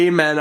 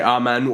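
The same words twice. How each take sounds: First: Amen starting with a long AY; AY-men pronunciation. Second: Amen starting with an open AH; AH-men pronunciation. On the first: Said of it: "I say amen". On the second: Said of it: "I think other people say amen". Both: Shown as a demonstration.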